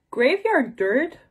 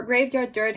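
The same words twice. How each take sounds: First: Slow, higher, rising disbelief; incredulous question. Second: Said in the usual way. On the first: Shown as a demonstration. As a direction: question the phrase as if you can't believe it. Repeats the phrase in disbelief.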